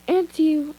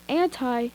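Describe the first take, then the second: First: "Anti" said as "an-tee", ending in ee; "Anti" with a long ee at the end; pronounced AN-tee. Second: "anti" said as "an-tie", ending in eye; "anti" with the eye sound at the end; pronounced AN-tie. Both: Shown as a demonstration. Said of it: "Everyone says anti".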